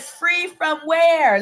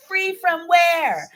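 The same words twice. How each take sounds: First: Higher and slow, a suspicious mother's question; mother's pitch climbing as trouble nears; mom's voice going high. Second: Higher, slow, warning mother's question; imitating a mother's rising, suspicious voice; mom's voice going high. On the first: Retold or imitated. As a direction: stretch it out like mama about to blow. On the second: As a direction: draw it out high like trouble is coming. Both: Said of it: "when her voice gets a little high".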